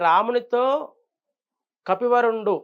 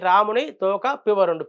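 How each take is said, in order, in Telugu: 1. పదవిచ్ఛేదం ramunito తర్వాత, kapivarundu ముందు వస్తుంది. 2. పదవిచ్ఛేదం ramuni తర్వాత, toka ముందు వస్తుంది. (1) "రామునితో కపివరుండు అనే దానికి" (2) "రాముని తోక పివరుండు... రాముడికి తోక ఏంటి? అర్థం మారుతుంది"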